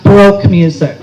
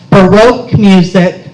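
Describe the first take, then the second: First: "Baroque" squashed into one syllable, "broke"; mispronounced Baroque. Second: "Baroque" in two syllables, buh-ROKE; correct Baroque. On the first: Librarian echoing a customer's mistake, "Baroque" said as "broke". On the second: Librarian correcting a customer, "Baroque" said properly as buh-ROKE. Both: Retold or imitated. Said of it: "not Baroque music".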